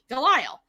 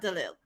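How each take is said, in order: First: The name is said with an American pronunciation. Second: The name is said with a French pronunciation. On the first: This is the speaker's everyday Americanized form. The speaker calls it wrong. "the way I pronounce it, is Delisle" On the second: This is how French speakers would say it. The speaker calls it right. "they would say Danielle Delille"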